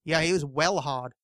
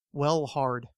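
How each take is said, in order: First: Mock tough-guy English accent, lightly done; tough British accent. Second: Said in the usual way. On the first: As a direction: attempt a tough English accent, slowly, dropping the R in "hard". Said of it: "this tough accent that people slip into". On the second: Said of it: "Let's just say it that way".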